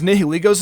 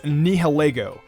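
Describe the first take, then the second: First: The ending does not sound like 'lego'. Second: The ending sounds like the word 'lego'. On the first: The speaker calls it right. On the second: The speaker calls it wrong.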